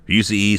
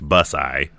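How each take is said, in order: First: The name ends with an 'ee' sound. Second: The name ends with an 'eye' sound. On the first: "I keep wanting to say Busey" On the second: "like if you had Bus and I and you crammed it together"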